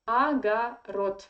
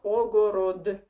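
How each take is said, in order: First: The first two vowels sound like 'a'. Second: The first two vowels sound like 'o'. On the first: The speaker calls it right. "The first two o you read like a" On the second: The speaker calls it wrong. "not ogorod"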